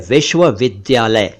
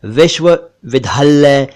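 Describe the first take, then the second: First: विश्वविद्यालय as "vishva-vid-dya-lay"; plain d-y and single l in विश्वविद्यालय; careful विश्वविद्यालय with no aspiration; correct pronunciation. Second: विश्वविद्यालय as "vishva-vidhallay"; common mispronunciation. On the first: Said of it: "सही उच्चारण है". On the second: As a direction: double the l and drop the y in विश्वविद्यालय. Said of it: "जो कि गलत उच्चारण है". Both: Shown as a demonstration.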